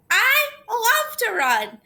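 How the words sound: It is said in an excited tone.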